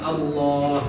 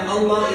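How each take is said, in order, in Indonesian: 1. Vokal setelah l ganda itu panjang. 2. Vokal setelah l ganda itu pendek.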